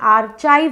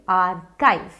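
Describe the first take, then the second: First: The middle consonant is a ch sound. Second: The middle consonant is a k sound. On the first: The speaker calls it wrong. "अब ये आर्चाइव नहीं है तो इसे च मत पढ़िए" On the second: The speaker calls it right. "इसे पढ़िए आर्काइव"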